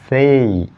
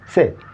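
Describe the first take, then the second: First: The vowel glides from one sound to another. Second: The vowel is a single steady sound. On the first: The speaker calls it right. "Diphthongs come into play" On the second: The speaker calls it wrong. "That's not say"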